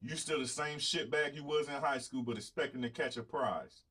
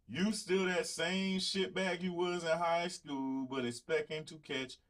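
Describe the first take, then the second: First: Said in the usual way. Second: Slow, higher Southern twang drawl; exaggerated Southern accent, slowed right down. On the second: Shown as a demonstration. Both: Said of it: "That Southern twang".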